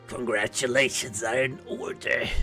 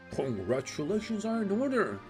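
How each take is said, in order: First: It is said in a put-on character voice. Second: It is said in his natural voice.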